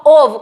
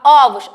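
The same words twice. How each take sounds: First: OVO with a closed first o, as in ô-vo; OVO, first vowel close-mid like a circumflex ô. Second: OVOS with an open first o, as in ó-vos; OVOS, first vowel open like an acute ó. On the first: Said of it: "que é o som fechado". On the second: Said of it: "ele tem um sonzinho mais aberto". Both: Shown as a demonstration.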